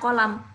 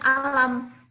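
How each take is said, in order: First: The word begins with a k sound. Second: The word begins with a glottal stop.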